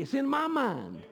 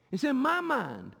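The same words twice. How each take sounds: First: Said in the usual way. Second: "mind" drawn out slowly, pressed home; slow emphatic repeat. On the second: Shown as a demonstration. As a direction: repeat "It's in my mind" slower, leaning on "my".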